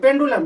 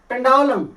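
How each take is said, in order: First: The middle vowel is an 'oo' sound. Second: The middle vowel is an 'ow' sound. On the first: The speaker calls it wrong. "ऐसे पड़ जाते हैं पेंडुलम लेकिन नहीं" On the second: The speaker calls it right. "ये diphthong है"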